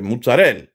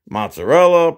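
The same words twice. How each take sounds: First: The final vowel is dropped. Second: The final vowel is clearly pronounced. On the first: "they don't say the last letter" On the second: "Like in English, well, American"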